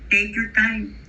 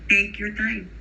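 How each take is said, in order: No difference in how they are said.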